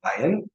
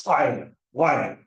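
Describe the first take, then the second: First: Ashkenazi-style "ayin" without the guttural; Ashkenazi pronunciation. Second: Attempted guttural "ayin" from the throat; non-native try at a guttural "ayin"; Sephardic pronunciation. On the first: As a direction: say "ayin" smoothly, no throat sound. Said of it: "an Ashkenazi Jew would say". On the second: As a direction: say "ayin" with a throaty first sound. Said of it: "a Sephardic Jew would say something like". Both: Shown as a demonstration.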